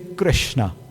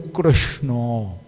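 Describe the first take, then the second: First: It is said with a plain UP-style vowel. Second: It is said with a Bengali rounded 'oh' vowel.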